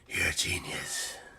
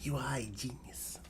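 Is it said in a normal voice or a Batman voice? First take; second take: Batman voice; normal voice. First: It is said in a Batman impression voice. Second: It is said in his normal voice.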